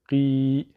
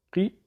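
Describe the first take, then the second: First: Drawn-out "qi", vowel held; lengthened i. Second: Brief "qi", vowel not held; short i. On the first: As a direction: stretch "qi" into qii. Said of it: "allongé par la voyelle longue ya". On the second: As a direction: say a quick "qi" from the back of the throat. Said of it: "Le qaf avec le i". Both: Shown as a demonstration.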